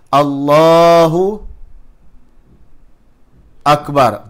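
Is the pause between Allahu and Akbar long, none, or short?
long. A long pause separates Allahu and Akbar.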